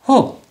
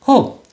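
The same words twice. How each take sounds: No difference in how they are said.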